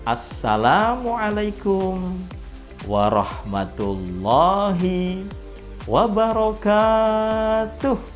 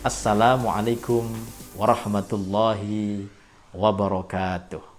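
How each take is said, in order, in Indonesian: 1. Salamnya diucapkan dengan lambat dan panjang. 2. Salamnya diucapkan dengan lembut dan pelan. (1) "kecepatannya itu diperlambat" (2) "bisa lebih lembut lagi"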